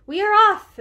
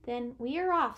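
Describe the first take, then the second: First: High, loud and excited Mouse; happy exclamation. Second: Subdued, resigned Mouse; mildly dejected. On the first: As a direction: exclaim it with eager delight. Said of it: "exclaimed Mouse with a happy wag". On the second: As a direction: give in without any excitement. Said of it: "his whiskers didn't wag this time". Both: A narrator's reading.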